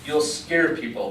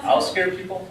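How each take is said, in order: First: "scare" drawn out, falling to a statement; firm statement. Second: High questioning echo on "scare"; incredulous echo. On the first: Friend explains the rule to him, firm statement with "scare" stressed. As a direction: state it slowly, leaning on "scare". Friend's answer, then echoed as question. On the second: Tourist echoes his friend's reason, incredulous question on "scare". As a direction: throw it back as a baffled question. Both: A narrator's reading.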